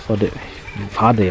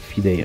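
First: The first vowel sounds like 'ah'. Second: The first vowel sounds like 'ee'. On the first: The speaker calls it right. "Fadei heißt der" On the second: The speaker calls it wrong. "nicht Fidei"

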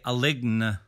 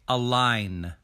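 First: The G is pronounced inside the word. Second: The G is silent inside the word. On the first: The speaker calls it wrong. "We don't say align" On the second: The speaker calls it right. "we say align"

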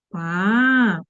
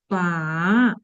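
First: The pitch dips low, then rises. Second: The same.

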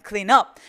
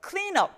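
First: The stress is on the word up. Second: The stress is on the word clean.

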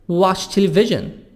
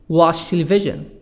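Both takes have the same delivery.

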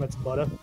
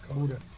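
First: The first vowel sounds like 'u' in but. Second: The first vowel sounds like 'oo' in boot. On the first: "if I just actually let the accent drop from where I'm from" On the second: "Say booter"

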